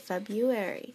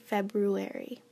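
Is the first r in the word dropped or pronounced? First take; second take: dropped; pronounced. First: The first r sound is left out. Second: The first r sound is clearly pronounced. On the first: "when we say February" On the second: "maybe I should say February"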